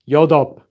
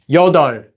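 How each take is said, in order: First: The word ends with a P sound. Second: The word ends with an L sound. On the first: The speaker calls it wrong. "not 여덟" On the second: The speaker calls it right. "which is pronounced as 여덟"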